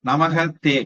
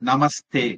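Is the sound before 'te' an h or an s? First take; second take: h; s. First: An h sound comes before 'te'. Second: An s sound comes before 'te'.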